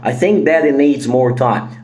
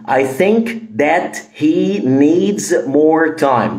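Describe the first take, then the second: First: It is said quickly with the h sound dropped. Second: It is said slowly with the h sound pronounced. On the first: "عاوز اقولها بسرعة" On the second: "ده بالراحة"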